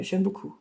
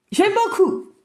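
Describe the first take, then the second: First: Said in the usual way. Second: High-pitched, enthusiastic "J'aime beaucoup"; emphatic praise. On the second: Real, not acted. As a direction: lift the praise up high, delighted. Repeats her praise with emphasis.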